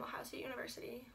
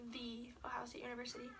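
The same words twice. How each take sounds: First: Said in the usual way. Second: "the" as long "thee", rest of the name softer; emphatic THE. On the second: Real, not acted. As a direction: correct yourself with a weighty "the". Corrects herself to stress THE.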